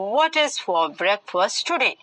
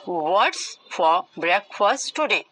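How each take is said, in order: First: 'What is' is said as two full words. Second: 'What is' is contracted into one syllable.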